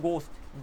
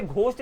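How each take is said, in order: First: घोस्ट with a plain g and no aspiration, like English ghost; correct silent h. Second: घोस्ट said with a breathy aspirated gh at the start; wrong aspirated gh. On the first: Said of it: "इसे बोलते हैं घोस्ट". (घोस्ट, सादा ग, एच silent) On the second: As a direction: say घोस्ट as gh-ost, a puff of air after the g. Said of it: "इसे घोस्ट नहीं बोलते". (घोस्ट, घ की तरह हवा के साथ) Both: Shown as a demonstration.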